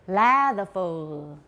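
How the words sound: It is pronounced the way Danish speakers say it. This is the original pronunciation of the name. "This is how it's pronounced in the original Danish"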